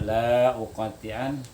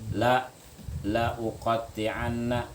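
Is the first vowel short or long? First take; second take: long; short. First: The first vowel is drawn out long. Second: The first vowel is held short. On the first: The meaning changes from a sworn promise. The speaker calls it wrong. "kalau dibaca" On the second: The speaker swears he will surely cut. The speaker calls it right. "yang satu harakat artinya sungguh, taukid"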